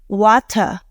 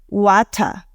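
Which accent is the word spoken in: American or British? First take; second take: British; British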